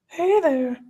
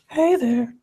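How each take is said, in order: First: It is said in a natural speaking voice. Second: It is said in a put-on character voice.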